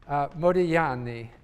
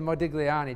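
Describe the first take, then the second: First: The G is silent, Italian style. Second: The G is pronounced, English style. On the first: This is the original Italian pronunciation. "because in Italian, you don't pronounce the G" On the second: This makes the name easier for listeners to understand. "I tend to say Modigliani just to be understood"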